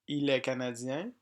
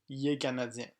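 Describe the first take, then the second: First: 'Il est' is pronounced in full. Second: 'Il est' is reduced to 'yé'. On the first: "Français écrit" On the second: "Il est est prononcé yé"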